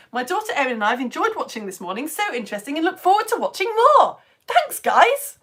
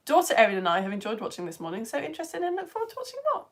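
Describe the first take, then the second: First: Put-on bubbly kids' TV presenter reading a comment, rising higher and louder; Maddie Moat impression. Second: Said in the usual way. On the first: Science teacher imitating a children's TV presenter, lightly bubbly. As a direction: read it like a cheery CBBC host. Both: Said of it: "that was my Maddie Moat impression".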